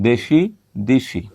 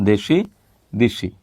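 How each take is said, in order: No difference in how they are said.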